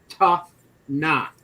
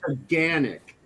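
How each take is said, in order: First: The name is said as two words, 'tough knock'. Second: The name is said as three syllables, 'taganic'. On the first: This is a guess from the spelling. The speaker calls it wrong. "if you read it out and didn't know any better, you would pronounce it tough knock" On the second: This is how locals say it. The speaker calls it right. "But it's pronounced"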